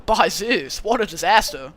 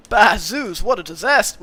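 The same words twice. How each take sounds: First: Laid-back surfer dude take; easygoing, relaxed satyr dude; cool dude voice. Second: Satyr line in the wrong character voice, a bit louder; accidental Georgie voice. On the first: Streamer retrying the satyr's line as a lightly voiced cool dude. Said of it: "I'll give him, like, a cool dude voice". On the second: Streamer voicing the satyr, accidentally in Georgie's voice. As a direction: slip into the old cop's voice by mistake. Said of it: "I just gave him the same voice as Georgie accidentally". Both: Acted.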